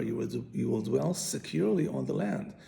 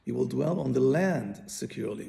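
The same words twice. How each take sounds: First: "You will, you will dwell securely on the land" with "securely" pushed and rising; weight on "securely", "on the land" trails after; stress on securely. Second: "You will dwell on the land securely" with "land" punched louder; weight falls on "on the land", "securely" trails after; stress on the land. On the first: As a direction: hit "securely" to mean being provided for. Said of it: "is on secure". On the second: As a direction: lean hard on "land" to mean staying on it. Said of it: "is on the first word". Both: Shown as a demonstration.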